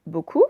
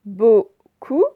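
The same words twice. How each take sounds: First: Said in the usual way. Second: "Beaucoup" split in two loud syllables. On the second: Shown as a demonstration. Teacher modelling a word for pupils, syllable by syllable. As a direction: separate both syllables of "Beaucoup", rising at the end.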